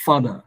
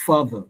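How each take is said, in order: First: Father as tonalized "fada", both syllables full; deliberately mispronounced father. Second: Father with strong FA and weak "ther"; stress on first syllable. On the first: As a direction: give the second syllable of father full weight, with d. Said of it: "I'm gonna pronounce wrongly". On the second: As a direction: lean on FA in father, let the end fall. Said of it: "while the other one is weaker". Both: Shown as a demonstration.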